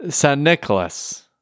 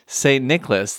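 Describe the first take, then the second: First: Drawn-out Saint Nicholas with a put-on Dutch accent. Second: Said in the usual way. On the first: Shown as a demonstration. Podcast host showing how the Dutch say it, in a Dutch accent. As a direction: Saint slurred into a slow Dutch-accented "San". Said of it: "the best Dutch accent I've ever heard". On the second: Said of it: "if you were a Dutch person trying".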